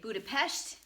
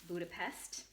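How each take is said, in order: First: It is said the way Hungarians say it. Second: It is said the usual English way. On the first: "if you're from Hungary or you live in Hungary, you say Budapest" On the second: "and not Budapest"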